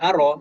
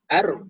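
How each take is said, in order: First: A vowel sound follows the r. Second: No vowel sound follows the r. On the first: The speaker calls it wrong. "Bukan aro" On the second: The speaker calls it right. "tapi ar miha"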